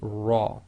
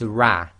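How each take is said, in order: First: The r is heavy with a full, rounded mouth. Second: The r is light with a spread, smiling mouth. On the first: The speaker calls it right. "pronounced as tafkhim, that is heavy, full mouth" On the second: The speaker calls it wrong. "What you can't say is ra ... you sort of make a smile which is more like empty mouth"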